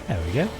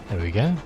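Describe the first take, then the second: Both takes have the same delivery.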